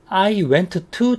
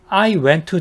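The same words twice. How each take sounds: First: Both t sounds are pronounced separately and strongly. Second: The first t is nearly dropped into the second. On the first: The speaker calls it wrong. "t를 두 번 더 세게 하는 게 아니라" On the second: The speaker calls it right. "첫 번째 t와 두 번째 t를 연음을 해요"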